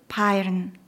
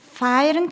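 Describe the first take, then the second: First: The word begins with a p sound. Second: The word begins with an f sound.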